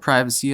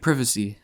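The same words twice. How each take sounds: First: It is said with an American pronunciation. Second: It is said with a British pronunciation.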